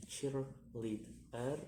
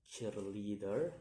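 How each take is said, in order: First: "cheerleader" slowly in three separate beats, last rising; syllable by syllable. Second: Said in the usual way. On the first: Shown as a demonstration. Teacher demonstrating syllables, "cheerleader" slow and split. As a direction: break "cheerleader" into its three parts. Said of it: "three syllables to say". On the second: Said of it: "the ending er".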